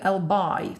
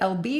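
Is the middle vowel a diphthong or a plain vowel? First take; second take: diphthong; plain vowel. First: The middle vowel is an eye diphthong. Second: The middle vowel is a plain ee sound. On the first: "через дифтонг I" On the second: "через звук I"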